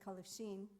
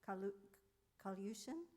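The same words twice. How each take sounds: First: The name is said in the old family form. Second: The name is said in its newly learned form. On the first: The speaker calls it wrong. "We always said Kalushin because she never taught us to say it the right way" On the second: The speaker calls it right. "Did I say it right? Um, I've just learned to say it"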